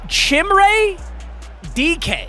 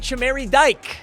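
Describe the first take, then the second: First: The surname sounds like the letters D K. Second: The surname is one syllable rhyming with bike. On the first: The speaker calls it right. "like D K Metcalf" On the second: The speaker calls it wrong.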